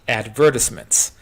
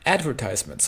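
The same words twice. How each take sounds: First: It is said with a British pronunciation. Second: It is said with an American pronunciation.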